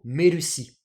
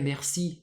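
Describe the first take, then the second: First: It is said with Japanese-style sounds, 'merushi'. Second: It is said with plain French sounds. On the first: "ça embêtait un peu les Japonais de dire merci. Du coup" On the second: "merci, c'est un mot qui est tellement connu dans le monde entier"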